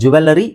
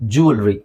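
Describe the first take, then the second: First: It has four syllables, with a vowel before ri. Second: It has three syllables, with no vowel before ri. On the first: The speaker calls it wrong. "ಅದು ಜ್ಯುವೆಲ್ಲರಿ ತಪ್ಪು" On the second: The speaker calls it right. "ಜ್ಯುವೆಲ್ರಿ ಅಂತ ಹೇಳ್ಬೋದು"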